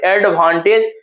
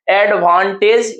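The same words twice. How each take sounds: First: Said in the usual way. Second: "एडवांटेज" very slowly as एड-वां-टेज; three parts. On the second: Shown as a demonstration. Teacher asking how many parts, syllable by syllable. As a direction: stretch each syllable of "एडवांटेज". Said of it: "कितने part में है".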